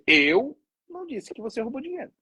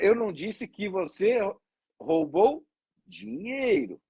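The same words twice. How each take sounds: First: The stress is on "Eu". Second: The stress is on "dinheiro".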